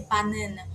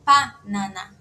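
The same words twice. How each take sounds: First: "banana" with a nasal middle A; wrong Portuguese pronunciation. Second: "panana" slow, with P and open A's; correct Korean pronunciation. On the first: Teacher shows what the Korean word won't be, Portuguese pronunciation. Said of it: "então não vai ser banana". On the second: Teacher corrects banana for students, slow syllable-by-syllable demonstration. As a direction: separate "panana" after a firm first PA. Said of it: "vai ser panana". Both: Shown as a demonstration.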